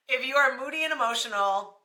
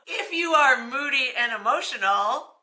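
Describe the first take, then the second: First: Said in the usual way. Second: Reading the line through a laugh; can't keep a straight face. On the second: Real, not acted. Vlogger reads the moody old wives' tale to viewers, laughing.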